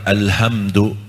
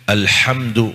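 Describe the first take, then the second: First: The h is a plain, light sound. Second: The h is a deep, throaty sound. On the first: The meaning changes to something that the speaker says is badly wrong. The speaker calls it wrong. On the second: All praise belongs to God. The speaker calls it right.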